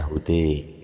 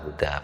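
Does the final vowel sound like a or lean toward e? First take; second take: e; a. First: The final vowel is tilted toward an e sound. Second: The final vowel is a plain open a.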